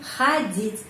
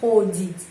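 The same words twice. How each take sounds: First: The first vowel sounds like 'a'. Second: The first vowel sounds like a full 'o'. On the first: The speaker calls it right. "tetapi ходить" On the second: The speaker calls it wrong. "bukan ходить"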